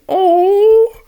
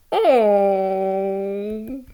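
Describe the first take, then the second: First: Much higher and louder squealed Oh!; excited squeal. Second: Said in the usual way. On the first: Real, not acted. Reader squeals as Pearl Man blushes, excited squeal. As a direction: squeal Oh! with delight.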